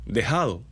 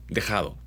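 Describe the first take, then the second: First: Dejado with a weak, breathy j; soft j. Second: Dejado with a firm throaty j from the back of the mouth. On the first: Teacher showing the northern soft j in Dejado. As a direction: let the j in Dejado go soft, barely there. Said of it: "las Jotas y las G se vuelven débiles". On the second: Teacher giving the right, firm j in dejado. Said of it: "no es dejémoslo, es dejado". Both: Shown as a demonstration.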